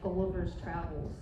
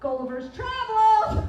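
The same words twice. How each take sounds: First: The phrase is said in a plain, even voice. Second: The phrase is said loudly with strong emphasis.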